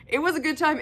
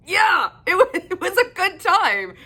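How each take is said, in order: First: Said in the usual way. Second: Bright laughing reply, pitched high. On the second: Real, not acted. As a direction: laugh through the words. Laughing while recapping the book.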